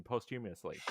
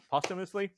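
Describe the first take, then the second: First: "posthumously" with a long O, as in post; first pronunciation attempt. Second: "Posthumously" with short first vowel, like POS-tuh-mus-lee; questioning pronunciation. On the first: Telling the co-host about the pardon, "posthumously" said as post-humous-ly. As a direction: say "posthumously" as post-HUME-ee-us-lee. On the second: Doubting the word just said, "Posthumously" retried as POS-tuh-mus-lee. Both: Real, not acted. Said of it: "I don't know how that word's pronounced".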